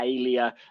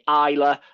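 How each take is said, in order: First: The name has three syllables, ending in lee-a. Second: The name has two syllables, sounding like eye-la. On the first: This is how other people say the name. The speaker calls it wrong. "We get Alia" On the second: This is how the name's owners say it. The speaker calls it right. "we say Isla"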